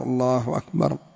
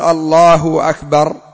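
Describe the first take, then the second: First: The vowel after Allah is kept short. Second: The vowel after Allah is stretched long. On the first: The speaker calls it right. "يعرف ماذا يقول" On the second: The speaker calls it wrong. "فلا تخرج الضم إلى الواو، ما تقول الله أكبر، هذا لا يصلح"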